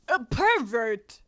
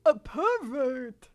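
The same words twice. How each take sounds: First: Put-on slow Southern accent; drawn-out accusation in a Southern accent. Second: Slow, halting celebrity impression; Christopher Walken. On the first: Manga girl accusing a starer, slow Southern accent. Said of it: "We're ditching the Southern accent". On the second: Manga girl accusing a starer, slow Christopher Walken voice. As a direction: stretch it out like a famous actor's drawl. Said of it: "we're going to Christopher Walken".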